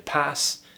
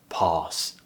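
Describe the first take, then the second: First: The vowel is short and made toward the front. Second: The vowel is long, open and pulled back. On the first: It belongs to some other British accents. "in some other British accents you might hear pass" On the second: It belongs to a modern RP accent. "if you're looking for a modern R P accent, pass, ah"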